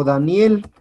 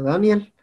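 First: Said in the usual way. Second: "Daniel" stressed on the A, DA-niel; stress on first syllable. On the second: Shown as a demonstration. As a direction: say "Daniel" with the accent moved to the A. ("Daniel" con acento en la A) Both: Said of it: "con acento en la A".

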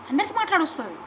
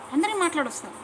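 Both takes have the same delivery.

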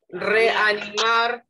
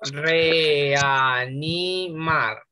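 First: Slow syllables. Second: Reanimar stretched out syllable by syllable, very slow; very slow syllabifying. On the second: Teacher spelling out syllables for the class, very slowly. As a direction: drag every syllable of Reanimar apart. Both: Shown as a demonstration. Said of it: "sepárenla en sílabas".

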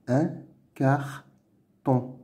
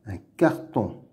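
First: "Un carton" as "un", "car", "ton"; syllable by syllable. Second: Said in the usual way. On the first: Shown as a demonstration. Teacher sounding out words to read, "Un carton" in separate syllables. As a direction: pause after each syllable of "Un carton". Reading drill, split then blended.

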